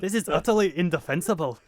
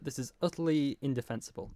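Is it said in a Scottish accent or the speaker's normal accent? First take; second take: Scottish accent; normal accent. First: It is read in a put-on Scottish accent. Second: It is read in the speaker's normal accent.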